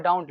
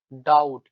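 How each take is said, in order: First: "डाउट" with an n before the final t, "daunt"; as written. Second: "डाउट" with no n, like English "doubt", falling and louder; memory-aid pronunciation. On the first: Teacher showing students the written word, n sounded as in "daunt". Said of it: "इसको बाद लिखा हुआ है". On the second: Teacher telling students how to read it, loud n-less "doubt". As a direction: drop the n and land hard on "डाउट". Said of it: "लेकिन पढ़ेंगे क्या". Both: Shown as a demonstration.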